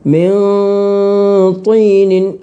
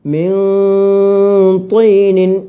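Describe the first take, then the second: The two takes are said the same way.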